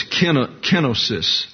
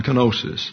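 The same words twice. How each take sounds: First: Kenosis said KEN-uh-sis; accent on first syllable. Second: Kenosis said kuh-NO-sis; accent on the omega. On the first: Teacher reading the Greek accent mark, kenosis as KEN-uh-sis. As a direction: hit KEN at the start of kenosis. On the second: Teacher giving in to common usage, kenosis as kuh-NO-sis. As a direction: hit NO, the middle syllable of kenosis. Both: Shown as a demonstration. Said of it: "everybody wants to accent the omega".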